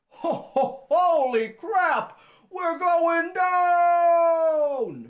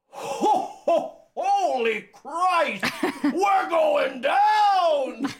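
First: The voice is less deep and gravelly. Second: The voice is deep and gravelly.

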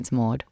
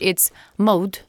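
First: The name is said with an Australian accent. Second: The name is said with a French accent.

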